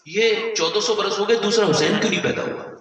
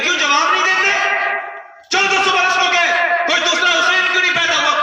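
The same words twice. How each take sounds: First: Said in the usual way. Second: High, loud demand for an answer; challenging shout. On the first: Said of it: "کہنے لگی". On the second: Retold or imitated. Official challenging the silent crowd, loud shouted demand. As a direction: hurl the question at the silent crowd. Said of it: "کہنے لگے".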